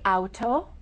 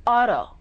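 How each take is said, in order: First: Auto with a clear, crisp T; careful T. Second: Auto with the T as a quick D tap; flapped T. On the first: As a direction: say auto with the T fully stopped. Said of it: "We don't say auto". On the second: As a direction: say auto like ah-doh. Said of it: "we say auto". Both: Shown as a demonstration.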